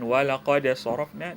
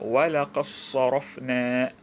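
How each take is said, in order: First: The d is pronounced separately before s. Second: The d merges into the following s.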